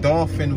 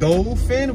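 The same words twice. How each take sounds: First: The first syllable sounds like 'daw'. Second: The first syllable sounds like 'doll'. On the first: It names the street. "Dolphin with an A" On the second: It names the animal. "Dolphin with an O"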